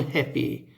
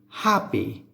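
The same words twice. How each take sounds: First: The first vowel sounds like the e in bed. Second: The first vowel sounds like the a in cat. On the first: The speaker calls it wrong. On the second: The speaker calls it right.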